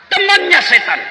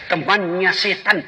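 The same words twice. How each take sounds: First: TEMANNYA SETAN pushed high and loud; louder repeat. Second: Said in the usual way. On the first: Shown as a demonstration. Preacher repeating the phrase to the congregation, raised loud.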